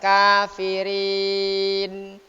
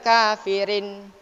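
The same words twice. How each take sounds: First: The vowel before the final n is drawn out. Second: The vowel before the final n is short. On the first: The speaker calls it right. "harus kafirin" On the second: The speaker calls it wrong. "Tidak boleh kafirin"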